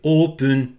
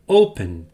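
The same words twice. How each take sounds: First: It is said with Japanese sounds, like oopun. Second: It is said with English vowels and final n. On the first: "le son le plus proche de open en anglais, quand on le, le met en japonais, c'est open" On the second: "ça se prononce open"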